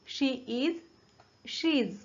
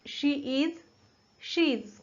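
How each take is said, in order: The two takes are said the same way.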